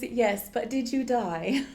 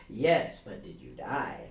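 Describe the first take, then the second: First: Slow, snooty rise until the very last word; rising to the end. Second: "Yes" level, then "but did you die?" drops low; said the way someone normal would, no climb; normal falling tune. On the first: Co-host points out how the snooty character rises. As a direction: pitch climbs all through "Yes, but did you die?", peaking on "you". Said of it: "notice she goes up with that". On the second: Co-host contrasts a normal reading with the rise. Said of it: "where someone normal". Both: Shown as a demonstration.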